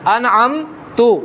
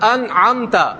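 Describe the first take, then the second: First: The word ends with a 'u' vowel. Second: The word ends with a short 'a' vowel. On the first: The speaker calls it wrong. "ता के ऊपर जबर की जगह पेश पढ़ दूं" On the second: The speaker calls it right. "ये लफ्ज लिखा है कुरान पाक का अनअमता"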